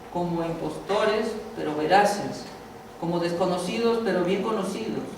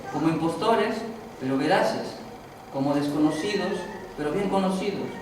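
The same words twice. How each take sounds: Both takes have the same delivery.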